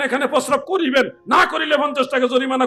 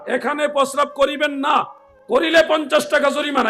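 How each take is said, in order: First: The pause comes before the word 'না'. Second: The pause comes after the word 'না'.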